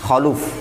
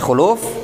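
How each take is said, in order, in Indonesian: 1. Suku kata pertama memiliki vokal 'a'. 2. Suku kata pertama memiliki vokal 'u'. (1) "dibaca dengan kha di fathah" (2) "Dibaca khuluf bidhammil kha"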